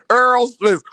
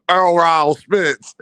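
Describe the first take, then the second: First: Said in the usual way. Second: "Earl Rao Spence" drawn out slowly, with an extra "ral" syllable; imitated name pronunciation. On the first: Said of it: "How you say it". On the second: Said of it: "how he say his name".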